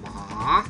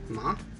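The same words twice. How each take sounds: First: The pitch dips down and then rises. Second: The pitch rises like a question. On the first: "it's a falling and rising tone" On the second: "the second one is a rising tone"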